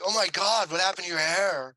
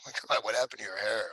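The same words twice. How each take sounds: First: It is said plainly, without laughing. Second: It is said with laughter in the voice.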